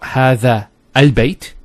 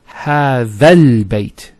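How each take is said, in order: First: The second word starts with a separate glottal start. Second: The two words run together without a glottal start. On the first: The speaker calls it wrong. "So it's not" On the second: The speaker calls it right.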